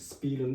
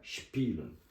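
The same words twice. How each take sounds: First: The word begins with a plain s sound. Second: The word begins with an sh sound. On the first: The speaker calls it wrong. "Spielen değil" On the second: The speaker calls it right. "SP, ŞP oldu"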